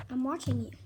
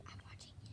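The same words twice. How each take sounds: First: Quiet, teasing warning; soft playful menace; murmured I'm watching you; low mock threat. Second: Hushed teasing warning; breathy whispered I'm watching you; mock whispered threat. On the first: First take, low voice. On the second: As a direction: whisper it, playfully ominous.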